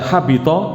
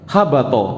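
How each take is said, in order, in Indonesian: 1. Suku kata kedua memakai vokal i. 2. Suku kata kedua memakai vokal a. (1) "Kalau dibaca habito maknanya fasada" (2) "sengaja diharakati habato, mungkin sanadnya begitu pakai fathah"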